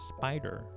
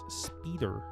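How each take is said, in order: First: The first vowel sounds like "eye". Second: The first vowel sounds like "ee". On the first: The speaker calls it right. "I is a long vowel" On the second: The speaker calls it wrong. "it's not pronounced as speeder"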